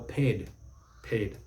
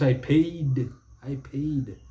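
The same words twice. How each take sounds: First: Paid short, one syllable; correct pronunciation. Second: Paid drawn out, "pay-eed"; mispronunciation. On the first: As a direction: say paid compactly, softly. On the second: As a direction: stretch the vowel in paid. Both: Shown as a demonstration.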